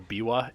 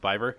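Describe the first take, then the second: First: The name is pronounced the Danish way. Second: The name is pronounced the English way.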